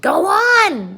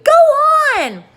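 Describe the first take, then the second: First: High, loud frantic call; frantic cry. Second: Much higher, louder frantic shriek; frantic scream. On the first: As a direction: cry out for him to go on. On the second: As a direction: scream at him to go on. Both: A narrator's reading. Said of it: "they cried frantically".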